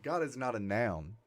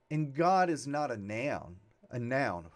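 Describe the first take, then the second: First: Said in the usual way. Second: Slight Texas twang on noun; a touch of Texas accent in the vowel of "noun". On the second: Real, not acted. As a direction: let Texas slip into "noun". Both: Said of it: "that was a Texas accent".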